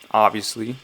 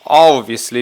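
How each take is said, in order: First: It is said in the speaker's normal accent. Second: It is said in a put-on British accent.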